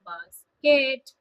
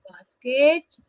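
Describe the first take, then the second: First: "basket" said in two even beats, settling down; two-syllable model. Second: "basket" split clearly in two beats with a lift at the end; two-syllable model. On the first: Teacher models word for class, level "basket" to repeat. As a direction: say "basket" as BAS-ket, flat and final. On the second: Teacher models word for class, rising tune on "basket". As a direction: say "basket" as BAS-ket, rising on ket. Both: Shown as a demonstration. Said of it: "listen and repeat".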